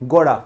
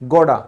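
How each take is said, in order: First: The middle t sound is soft, like a d. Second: The same.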